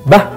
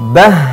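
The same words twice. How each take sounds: First: The final h is held back and cut short. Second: The final h flows out and is drawn out. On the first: The speaker calls it wrong. "tidak boleh tertahan" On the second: The speaker calls it right. "tapi bah ya"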